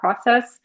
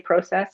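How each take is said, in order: First: The word is said with a non-Canadian pronunciation. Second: The word is said with a Canadian pronunciation. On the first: "and not process" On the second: "Canadian, in case anyone just ca- was wondering why I say process"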